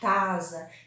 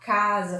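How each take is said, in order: First: The word begins with a t sound. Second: The word begins with a k sound. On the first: The speaker calls it wrong. "falar tasa" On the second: The speaker calls it right. "Ao invés de falar"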